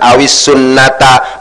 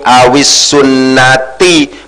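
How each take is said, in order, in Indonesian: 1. Kata terakhir diakhiri vokal a. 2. Kata terakhir diakhiri vokal i. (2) "dibaca jar karena dimasuki huruf jar"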